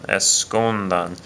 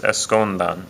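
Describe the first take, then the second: First: Escondan drawn out slowly, stress on the U. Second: Escondan with the stress on the U, es-CON-dan. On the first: Teacher slowly repeating escondan for the class. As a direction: stretch escondan out and lean on the U. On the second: Teacher pronouncing escondan for the class. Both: Shown as a demonstration. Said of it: "The stress is over the".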